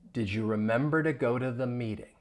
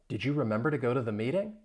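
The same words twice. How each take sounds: First: The question is said at a slow pace. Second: The question is said at a fast pace.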